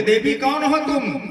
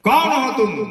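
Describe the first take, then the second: First: Higher, louder startled cry; loud frightened call. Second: Louder, fear-changed voice; frightened shout. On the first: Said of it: "जोर से आवाज से बोला". (डर से ज़ोर से पुकारना) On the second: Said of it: "आवाज उसका अलग बदल जाता है". (डरी हुई बदली आवाज़ में चीख) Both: Acted.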